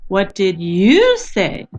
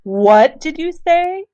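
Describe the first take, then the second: First: The word you carries the strongest stress. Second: The word what carries the strongest stress. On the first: The asker wants this person's reply, not another's. "she wants to know what I said" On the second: The listener did not hear clearly and is surprised. "So she emphasizes the word what"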